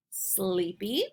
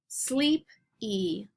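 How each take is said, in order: First: Said in the usual way. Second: SLEEP, pause, Y: two parts; word in parts. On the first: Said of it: "then we'll blend the word together". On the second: Shown as a demonstration. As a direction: break "Sleepy" into sleep and ee with a gap. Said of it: "I'm gonna say each word part".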